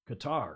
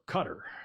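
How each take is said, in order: First: Qatar is said the usual non-local way. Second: Qatar is said the way locals say it. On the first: "some people say" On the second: "as the local Qataris call it"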